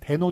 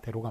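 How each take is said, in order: First: The second syllable begins with an n sound. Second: The second syllable begins with an l sound. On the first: The speaker calls it wrong. "대노 틀립니다" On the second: The speaker calls it right. "대로가 맞고요"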